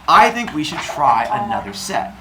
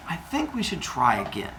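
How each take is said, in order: First: Said in the usual way. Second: Soft, careful proposal; tentative suggestion. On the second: Acted. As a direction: broach it gingerly to a husband. Mother Earth cautiously broaching more children.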